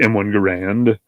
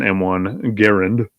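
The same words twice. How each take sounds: First: Garand said guh-RAND, stress at the end; second-syllable Garand. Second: Garand said GAIR-und, stress up front; first-syllable Garand. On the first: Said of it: "also known as". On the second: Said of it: "also known as the M one Garand". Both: Shown as a demonstration.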